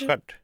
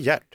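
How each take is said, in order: First: The name begins with a rough, hissing throat sound. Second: The name begins with a hard g sound. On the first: The speaker calls it right. "Du trycker så mycket på STJ. ... han uttalas Gert" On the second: The speaker calls it wrong. "inte Gert. Inte som Gert Fylking"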